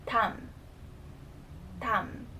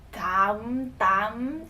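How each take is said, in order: First: "tam" with a soft D, nearly T. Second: "dam" with a hard, punched D; too-aggressive D. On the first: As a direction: say "tam" gently, without punching the first consonant. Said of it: "it would be a soft D sound". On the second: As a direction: hit the D of "dam" too forcefully. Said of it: "don't try to pronounce it too aggressively". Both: Shown as a demonstration.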